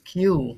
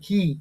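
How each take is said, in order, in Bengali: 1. শব্দটি 'oo' শব্দ দিয়ে শেষ হয়। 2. শব্দটি 'ee' শব্দ দিয়ে শেষ হয়। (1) "বাকিরা কিউ তো হবে না।" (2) "কি কি এটাই হবে প্রনাউন্সিয়েশন।"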